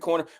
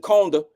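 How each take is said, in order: First: The R sounds are clearly pronounced. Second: The R sounds are dropped entirely. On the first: This is how the speaker's own community says it. "Like we say" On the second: This is how people from New Orleans say it. "don't have an R in anything they say"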